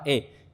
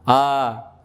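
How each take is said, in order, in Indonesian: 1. Vokalnya didorong jauh ke arah e. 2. Vokalnya adalah a biasa, terbuka penuh. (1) "berlebih-lebihan sehingga miring ke imalah" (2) "Kalau fathah kita gimana?"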